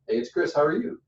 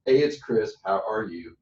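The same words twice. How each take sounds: First: How are you rising up at the end. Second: How are you sliding down at the end; downsloping tone. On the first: Coach showing the wrong greeting that raises blood pressure, rising. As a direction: reverse it and lift the ending. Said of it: "if I reverse it". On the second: Coach showing a calming phone greeting, downsloping. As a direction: let it slope downward to relax them. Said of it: "it's a downsloping tone". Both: Shown as a demonstration.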